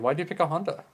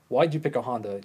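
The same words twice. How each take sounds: First: The question sounds neutral and curious. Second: The question sounds defensive and challenging. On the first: The asker simply wants to know the reason. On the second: The asker feels their own choice is under attack.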